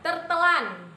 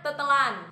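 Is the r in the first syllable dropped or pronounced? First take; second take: pronounced; dropped. First: The r in the first syllable is pronounced. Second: The r in the first syllable is dropped. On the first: "Semua kata imbuhan ter dan ber itu dihilangin r-nya" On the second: "jadinya tetelan"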